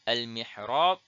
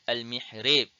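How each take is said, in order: First: The final long vowel is a pure open a. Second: The final long vowel leans toward e.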